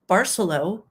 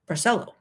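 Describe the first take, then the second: First: It is said like the start of Barcelona. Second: It is said unlike the start of Barcelona. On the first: This is how the resort's staff say it. "you say it Barcelo, as in Barcelona" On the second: This is how the speaker always assumed it was said. "I assumed it was Barcelo"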